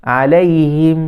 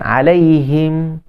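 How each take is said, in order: Both takes have the same delivery.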